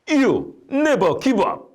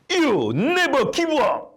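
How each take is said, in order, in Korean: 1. 조금 더 큰 목소리로 말합니다. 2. 벼락 같은 웅변조로 외칩니다. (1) "더 큰 목소리로 말했습니다" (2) "벼락과 같은 소리로 웅변조로 외쳤습니다"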